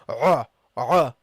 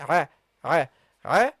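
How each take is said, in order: First: The throat sound is said heavy and full. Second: The throat sound is said light and thin. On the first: The speaker calls it wrong. "don't start very heavy. Don't say" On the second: The speaker calls it right. "start lightly because the ayn is a light letter"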